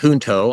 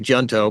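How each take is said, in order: First: The word is said with a Spanish pronunciation. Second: The word is said with an English pronunciation. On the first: "in Spanish, we would pronounce it the Junto" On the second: "it's a little hard for me to say Junto, but we suspect that's probably the way that he pronounced it"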